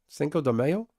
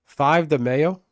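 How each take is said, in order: First: "Cinco de Mayo" with Spanish cinco, rising; corrected name. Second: "Five de Mayo" with English five, rising; mistaken name. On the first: Streamer corrects himself to the Spanish name, questioning. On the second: Streamer misnames the holiday, asking with a rise. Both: Shown as a demonstration.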